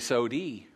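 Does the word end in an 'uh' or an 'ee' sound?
ee. The word ends with an 'ee' vowel. "you'd say sodi"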